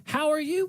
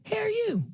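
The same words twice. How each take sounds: First: Said in the usual way. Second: "How are you?" run together into "hair-you", much higher; higher, Natchez accent, "How are you?" said as "hair-you". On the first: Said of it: "That's one word". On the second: Shown as a demonstration. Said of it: "You combine hair, like hair, H A I R, and just the letter U".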